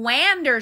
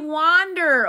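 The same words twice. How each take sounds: First: The first vowel is not an ah sound. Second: The first vowel is an ah sound. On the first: The speaker calls it wrong. "We don't wander somewhere. What is that?" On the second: The speaker calls it right. "We wander"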